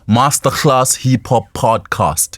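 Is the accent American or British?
British. It is said in a British English accent. "in the U K, we, we speak the U K English in South Africa. We say"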